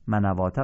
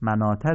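First: A w sound is pronounced before the long a. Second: No w sound is pronounced before the long a. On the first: The speaker calls it wrong. "منواته غلطه" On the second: The speaker calls it right. "مناته درسته"

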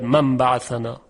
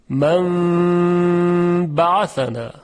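First: The nasal m is passed over quickly. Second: The nasal m is held for two beats. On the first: The speaker calls it wrong. "یعنی نمیگوید من بعثنا" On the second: The speaker calls it right. "قنه این حرف رو به اندازه دو حرکت نگه میداره"

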